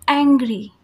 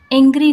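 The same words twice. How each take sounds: First: एंग्री with an open flat ऐ; correct angry. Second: एंग्री with a closed ए, said louder; wrong angry. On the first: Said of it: "इस type से बोलेंगे". (एंग्री, खुला ऐ) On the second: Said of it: "एंग्री नहीं कहेंगे". (एंग्री, गलत बंद ए) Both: Shown as a demonstration.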